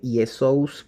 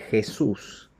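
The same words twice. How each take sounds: First: The name begins with a y-like sound. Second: The name begins with a throaty h-like sound. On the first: This is the older form before the letter changed. "en vez de decir Jesús" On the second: This is the later form after the letter changed. "pasó a decir Jesús"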